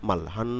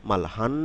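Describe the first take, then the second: The two takes are said the same way.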